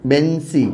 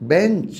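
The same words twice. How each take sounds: First: বেঞ্চি ending with a clear i vowel; final i added. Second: Said in the usual way. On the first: Shown as a demonstration. Teacher shows the final i added to বেঞ্চ. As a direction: add an i at the end of বেঞ্চ. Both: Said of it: "কীভাবে হলো দেখো".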